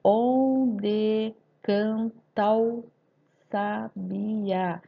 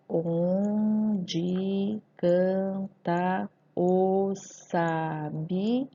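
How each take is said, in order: First: "Onde canta o sabiá" slow in syllables, "canta o" fused as "can-tao"; poetic scansion. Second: "Onde canta o sabiá" very slow, every syllable apart, "o" on its own; normal syllable division. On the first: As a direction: chant out the syllables slowly, gliding "ta o" into one. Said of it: "na escansão fica um pouquinho diferente". (escansão poética, juntando "canta o" em "can-tao") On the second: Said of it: "Eu faço uma separação silábica normal". (separação silábica normal, "o" separado de "canta") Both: Shown as a demonstration.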